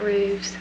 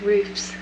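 First: It is said with a v sound before s. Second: It is said with an f sound before s. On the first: The speaker calls it wrong. "not roofs" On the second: The speaker calls it right. "the plural of roof is roofs"

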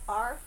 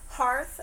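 First: The word starts without an H sound. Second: The word starts with an H sound. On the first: "I think some people are leaving out the H's these days" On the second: "I guess with the H"

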